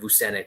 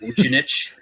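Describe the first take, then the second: First: The name is said with an English pronunciation. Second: The name is said with a Croatian pronunciation. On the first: The bearer uses an anglicized form of his name. "is English" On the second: This is how the name is said in its original language. "if he was actually like Croatian"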